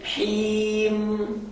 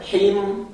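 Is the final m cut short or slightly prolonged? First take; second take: prolonged; cut short. First: The final m flows on slightly longer. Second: The final m is cut off abruptly. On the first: The speaker calls it right. "sedikit mengalir karena memiliki sifat tawassut" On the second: The speaker calls it wrong. "Tidak boleh him"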